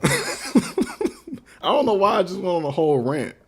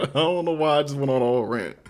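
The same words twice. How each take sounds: First: Slow, laughing through the words; amused at himself, real laughter; laughing at his own rant while talking to stream viewers. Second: Said in the usual way. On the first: Real, not acted.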